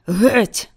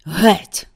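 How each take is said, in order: First: Louder shout with a rising end; repeated shout. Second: A loud, hoarse shout. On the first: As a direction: hurl the word again at the crowd. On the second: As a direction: drive them back with one hoarse word. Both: A narrator's reading. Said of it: "хрипко крикнув він".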